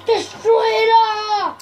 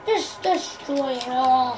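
First: Slow, drawn-out destruction cry; playful rampage shout; mock villain shout. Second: Slow, soft and much lower; playful low, drawn-out threat; low mock menace. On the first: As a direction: holler it with hammed-up relish. Destroyer's cry, first take. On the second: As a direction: sink into a quiet villain's order. Same cry repeated low.

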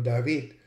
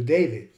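First: First David as "dah-VEED"; original David. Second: David as "DAY-vid"; English David. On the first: Lecturer on speakers switching to English, David as dah-VEED. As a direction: say David with ah, stress at the end. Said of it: "change the pronunciation from David". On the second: Lecturer on speakers switching to English, David as DAY-vid. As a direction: say David with ay, stressed first. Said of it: "to David". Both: Shown as a demonstration.

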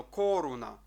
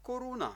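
First: Коруна with КО pushed loud and long; overstressed first syllable. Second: Коруна higher, evenly weighted, no hard push; even reading. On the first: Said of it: "Не тиснемо сильно". (коруна із сильним натиском на КО) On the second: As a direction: say коруна lightly, all syllables level. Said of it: "слово читаємо рівненько". (коруна рівненько, без сильного натиску) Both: Shown as a demonstration.

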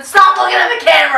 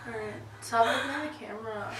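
First: Loud. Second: Said in the usual way. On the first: Real, not acted. Loud scolding friend.

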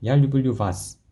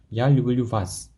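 First: Said in the usual way. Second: Я люблю вас said slowly, word by word; slow it down for the learners; slowed-down model. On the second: Shown as a demonstration. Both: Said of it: "이렇게 해주면 돼요".

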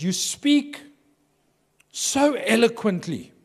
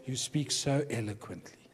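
First: High, slow, drawn-out praise; slow, high-pitched flattering compliment; admiring compliment. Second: Soft, laughing retelling; quiet amused repeat of the compliment; mock compliment. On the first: Retold or imitated. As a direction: gush it out slowly like a polite preacher. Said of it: "he goes". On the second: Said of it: "And so what does he say?".

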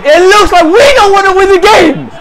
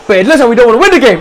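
First: High, angry yell; yelled in real exasperation; frustrated shout. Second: Said in the usual way. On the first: Real, not acted. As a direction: repeat the complaint as an outburst.

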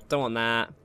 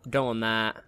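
Both takes have the same delivery.

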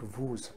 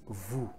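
First: Vous with the final s sounded, "vooz"; wrong sounded s. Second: Vous said "voo", no final s; silent s. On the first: Teacher showing the wrong vous with an s. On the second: Teacher giving the right vous with a silent s. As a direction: say vous without the s. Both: Shown as a demonstration. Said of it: "It is vous, not vous".

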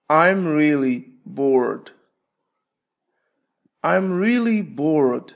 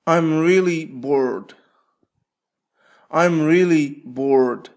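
No difference in how they are said.

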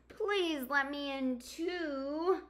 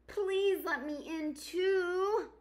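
First: Begging. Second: High, slow pleading fox; begging fox voice. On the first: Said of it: "begged Hedgehog". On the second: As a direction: beg sweetly in a higher fox voice. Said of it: "begged Fox". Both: Acted.

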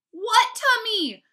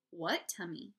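First: High, slow, exasperated shout. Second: Said in the usual way. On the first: A narrator's reading. Brother challenges Fudge's tummy claim, shouting. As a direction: shout it, drawing out both words. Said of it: "I shouted at my brother". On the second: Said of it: "Mom asked".

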